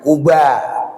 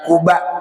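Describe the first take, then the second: First: The word ends without a glottal stop. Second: The word ends with a glottal stop. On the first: The speaker calls it wrong. "Kita sering mendengarnya hamzahnya dihilangkan" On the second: The speaker calls it right. "Yang betul tulisannya Kuba, pakai hamzah mati"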